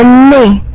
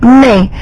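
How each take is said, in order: No difference in how they are said.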